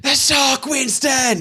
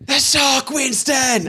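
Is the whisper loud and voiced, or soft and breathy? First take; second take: loud; loud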